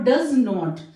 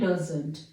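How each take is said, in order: First: It is said as two separate full words. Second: It is said as one contracted word. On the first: "spoken में हम डू और डज का use कर रहे हैं और नोट" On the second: "fluency के लिए हम यहां पे इसको डजंट का यूज करते हैं"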